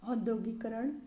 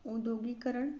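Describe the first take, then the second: First: औद्योगिकरण opened with an open AU. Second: औद्योगिकरण opened with U; opening U. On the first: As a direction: start औद्योगिकरण as "aud-". (औद्योगिकरण की शुरुआत "औ" से) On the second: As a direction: start औद्योगिकरण as "ud-". (औद्योगिकरण की शुरुआत "उ" से) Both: Shown as a demonstration. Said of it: "इसका होगा".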